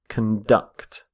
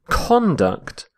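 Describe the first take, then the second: First: The stress is on the second syllable. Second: The stress is on the first syllable. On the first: It is the verb. "Stress on the second syllable" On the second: It is the noun. "when we're using the noun"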